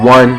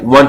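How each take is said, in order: First: The counting is said at a slower pace. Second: The counting is said at a faster pace.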